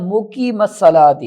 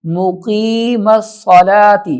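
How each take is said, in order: First: مقیم الصلاۃ with the madd cut short; rushed مقیم الصلاۃ, no stretch; wrong short reading. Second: مقیم الصلاۃ with the long vowel drawn out slowly; stretched madd. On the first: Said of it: "یہاں غلطی یہ کرتے ہیں". (غلط: مد کے بغیر) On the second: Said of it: "لمبا کر کے کھینچ کے پڑھیں گے". (مد کھینچ کر) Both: Shown as a demonstration.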